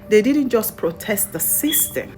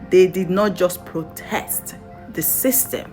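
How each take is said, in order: First: It is said fast. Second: It is said slowly.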